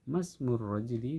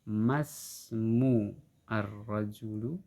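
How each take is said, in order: First: The article's vowel is silent and linked. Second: The article's vowel is pronounced separately. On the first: The speaker calls it right. "di sini alifnya tidak terbaca" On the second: The speaker calls it wrong.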